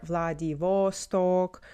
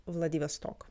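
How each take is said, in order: First: Vladivostok drawn out slowly, weight on "VOS"; slow Vladivostok, stressed in the middle; English mispronunciation. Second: Vladivostok with stress on the last O, "stok"; correct Russian pronunciation. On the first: Retold or imitated. Teacher shows what people say, slow middle-stressed version. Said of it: "in the middle". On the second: Shown as a demonstration. Teacher gives the correct Russian name, stressed at the end. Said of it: "the correct pronunciation of the city".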